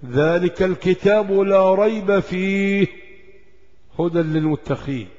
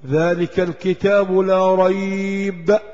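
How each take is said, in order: First: Chanted slowly, carrying ريب on into فيه before the pause; slow Quranic chant that pauses at فيه instead of ريب; stop after fihi. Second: Slow recitation of ذلك الكتاب لا ريب, halting after ريب; ذلك الكتاب لا ريب chanted slowly with a pause after ريب; stop after la rayb. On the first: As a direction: sing it through to فيه, then stop. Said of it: "القراءة الثانية". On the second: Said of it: "ثلاث نقط فوقها". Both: Shown as a demonstration.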